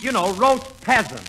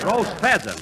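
First: Roast peasant, with a P instead of PH; peasant for pheasant. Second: Roast pheasant, with a clear F sound; correct pheasant. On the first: Real, not acted. [name] explains his French dish to [name], mispronouncing it. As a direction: say peasant, dropping the h sound. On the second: Shown as a demonstration. [name] corrects [name]'s mispronunciation of pheasant. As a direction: say pheasant properly with an F. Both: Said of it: "That's pheasant".

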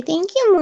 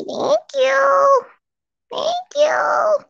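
First: Said in the usual way. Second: High squeaky voice for the dog; dog's voice. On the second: Pretend. Owner voicing Molly thanking the chat in a high squeak. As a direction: squeak it like the puppy talking.

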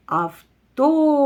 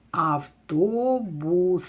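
First: Автобус called out loud and high, stress on О. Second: Автобус stretched very slowly, sound by sound to the final С; very slow sounded-out word. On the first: Teacher leading pupils to call the word, loud stressed call. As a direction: call Автобус out as if across a field, leaning on О. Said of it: "Гукаємо". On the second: Teacher to pupils finding the last sound, very slow sounding out. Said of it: "Слухайте останній звук". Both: Shown as a demonstration.

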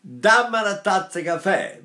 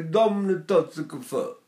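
First: Northern Italian crisp vowels on "Dammi una tazza caffè"; plain northern Italian. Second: Neapolitan dark, swallowed vowels on "Dammi una tazza caffè". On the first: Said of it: "the Italians, up north say". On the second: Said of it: "if you go to Naples". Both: Retold or imitated.

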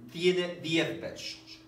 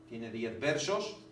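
First: "Tiene diez versos" said slowly, leaning hard on "Tiene"; drawn out, hitting "Tiene" first; emphatic statement. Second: Said in the usual way. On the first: Shown as a demonstration. Teacher stressing the count of "Tiene diez versos" for students.

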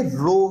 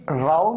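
First: रो said with a long "oh" vowel; correct pronunciation of row. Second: राव said with an "ow" vowel, as in cow; wrong pronunciation of row. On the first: Teacher correcting the reading for learners, row pronounced as रो. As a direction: rhyme रो with "go". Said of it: "ये रो है". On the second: Teacher showing learners the wrong reading, row mispronounced as राव. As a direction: rhyme राव with "now". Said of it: "ये राव नहीं है". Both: Shown as a demonstration.

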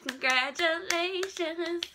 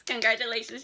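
First: Higher, slow, stretched congratulations; drawn-out congratulations. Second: Said in the usual way. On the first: Shown as a demonstration. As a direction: sing it out long and high.

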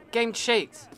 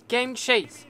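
No difference in how they are said.

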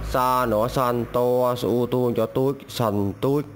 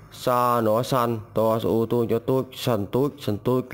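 First: Slow spelling demo. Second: Said in the usual way. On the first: Shown as a demonstration. Teacher spells the first word for learners, slowly. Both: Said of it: "Từ đầu tiên".

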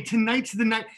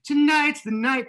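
First: Said in the usual way. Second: "Tonight's the night" higher and drawn out; slow, raised, hammed-up "Tonight's the night"; emphatic repeat. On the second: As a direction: stretch "Tonight's" high, like a desperate hope. Repeats the phrase with mounting hope.

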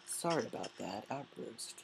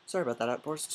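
First: Soft, hushed, a touch embarrassed; murmured mock apology; mock sheepish apology. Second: Said in the usual way. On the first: Shown as a demonstration. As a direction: apologise quietly as if chastened.

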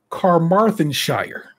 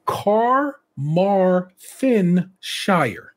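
First: Carmarthenshire said again, slowly but less drawn out; slow repeat. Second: Carmarthenshire stretched out very slowly, each syllable held; drawn-out place name. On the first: Host repeating the Welsh place name slowly, easing up. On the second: Host warning listeners, then sounding out Carmarthenshire very slowly. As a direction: drag Carmarthenshire out slowly and carefully. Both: Shown as a demonstration. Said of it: "watch for this one".

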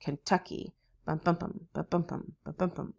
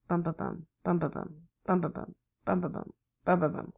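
First: "Kentucky. Bum, bum, bum" in the Kentucky rhythm, ken-TUCK-y; soft rhythmic bums set against the Tennessee beat; S3 gallop beat. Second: "bum, bum, bum" in the Tennessee rhythm, ten-ne-SEE; soft rhythmic bums, last beat strongest; S4 gallop beat. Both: Shown as a demonstration. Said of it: "That's a little bit different than Kentucky".

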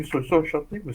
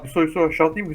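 First: Said in the usual way. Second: Loud, calling to a friend. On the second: Real, not acted. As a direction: shout across to a friend.

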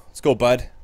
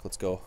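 First: Cheering. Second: Said in the usual way. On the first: Real, not acted. Cheering on his goalie.

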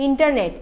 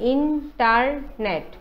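First: Said in the usual way. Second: internet slowly cut into three syllables. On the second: Shown as a demonstration. Teacher showing three syllables, internet slow and segmented. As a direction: separate each beat of internet. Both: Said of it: "তিনিটা syllable হ'ব".

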